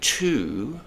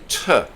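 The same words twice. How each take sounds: First: The word has a full 'oo' vowel. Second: The word has a reduced 'uh' vowel. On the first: The speaker calls it wrong. "we don't use the oo sound" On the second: The speaker calls it right. "like America. Uh"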